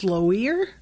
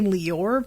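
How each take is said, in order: First: The O sound comes before the I sound. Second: The I sound comes before the O sound. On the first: The speaker calls it wrong. "That doesn't sound right" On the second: The speaker calls it right. "that would mean that the I would have to be before the O"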